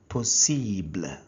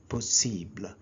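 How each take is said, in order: First: The word is said with French sounds. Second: The word is said with French sounds.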